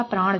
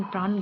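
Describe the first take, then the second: First: "प्राण" ending in retroflex ṇ; written retroflex n. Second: "प्राण" ending in plain dental n; spoken dental n. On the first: Teacher shows how it is written, retroflex "प्राण". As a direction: curl the tongue for ण in "प्राण". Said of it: "लिखा प्राण जाता है". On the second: Teacher shows how it is spoken, dental-n "प्राण". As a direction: end "प्राण" on an ordinary न. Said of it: "से बोला जाता है". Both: Shown as a demonstration.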